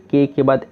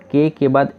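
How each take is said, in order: Both takes have the same delivery.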